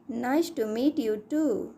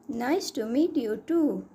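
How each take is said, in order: Both takes have the same delivery.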